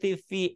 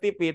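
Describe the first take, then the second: First: It is said with an English accent. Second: It is said with a local Indonesian accent. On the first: The speaker calls it right. "harus nonton T V English" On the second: The speaker calls it wrong. "orang sini mah T V"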